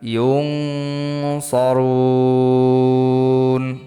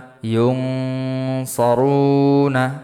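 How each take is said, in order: First: The word ends on a consonant after a long vowel. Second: The word ends on a final vowel.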